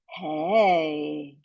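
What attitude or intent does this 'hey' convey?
confirming. It sounds like confirming information. The speaker is checking that something is true. "Hey, confirming information"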